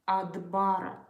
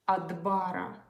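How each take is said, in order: No difference in how they are said.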